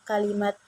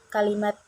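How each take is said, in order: The two takes are said the same way.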